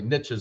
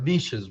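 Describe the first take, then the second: First: It is said in a folksy, hillbilly way. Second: It is said in a French-sounding way. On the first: "I say it like a hillbilly" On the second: "it's more French"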